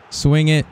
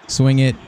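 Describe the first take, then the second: No difference in how they are said.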